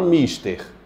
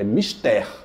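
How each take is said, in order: First: The stress is on the first syllable. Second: The stress is on the last syllable. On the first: The speaker calls it wrong. "Vocês estão falando mister" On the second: The speaker calls it right. "É mister"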